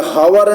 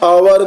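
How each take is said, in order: First: The word starts with an audible h sound. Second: The word starts with a vowel, no h sound. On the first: The speaker calls it wrong. "हावर नहीं करेंगे" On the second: The speaker calls it right. "इसका pronunciation हम अवर करेंगे"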